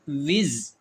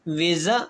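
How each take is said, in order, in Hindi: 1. शब्द एक सादे व्यंजन पर खत्म होता है। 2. शब्द एक जोड़े गए स्वर पर खत्म होता है।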